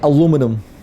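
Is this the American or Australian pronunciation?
American. It is said the American way, four syllables. "We don't say aluminum"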